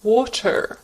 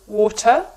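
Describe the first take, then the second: First: "water" with a clearly sounded final R; American rhotic "water"; no schwa, R ending. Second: British non-rhotic "water"; schwa ending. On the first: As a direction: pronounce the R at the end of "water". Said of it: "there is no schwa at the end". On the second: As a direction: drop the R at the end of "water". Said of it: "there is a schwa at the end". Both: Shown as a demonstration.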